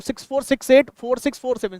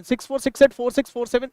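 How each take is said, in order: First: Said in the usual way. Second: Fast run of the digits six four six eight; quick number reading. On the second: Shown as a demonstration. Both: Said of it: "संख्या को फटाफट फटाफट पढ़ना है".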